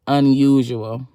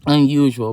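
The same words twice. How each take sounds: First: "unusual." read slowly with a rising tune; reading the plate. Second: "Unusual." repeated louder with a falling tune; emphatic repeat. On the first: Reading the word on the license plate, slow and rising. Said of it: "on the license plate, it said". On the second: Repeating the license plate word to her listeners, emphatic. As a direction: land "Unusual." as a firm point. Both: Shown as a demonstration.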